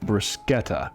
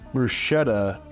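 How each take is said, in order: First: It uses the original, non-American pronunciation. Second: It uses the common American pronunciation. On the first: This is what the term really is. "the term is I th- I think bruschetta" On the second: This is how most Americans say it. "is how most Americans say it"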